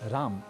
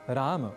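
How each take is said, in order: First: The word ends on a bare m consonant. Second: The word ends with an a vowel after m. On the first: The speaker calls it wrong. "न कहें" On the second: The speaker calls it right. "ऐसा कहें"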